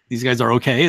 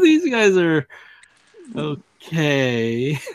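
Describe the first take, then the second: First: It flows straight through with no pause. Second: A short pause comes right before 'okay'. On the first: They are genuinely fine. The speaker calls it wrong. "it's not like these guys are okay" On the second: They are only doubtfully fine. The speaker calls it right. "There's like a little pause when he says okay"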